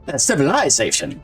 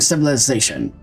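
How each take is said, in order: First: It is said in a British accent. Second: It is said in an American accent.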